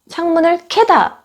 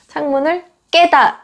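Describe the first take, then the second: First: The verb's consonant is aspirated with a burst. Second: The verb's consonant is tense and forceful. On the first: The speaker calls it wrong. "보통 창문을 캐다 라고 말씀하세요" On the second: The speaker calls it right. "창문을 깨다 입니다"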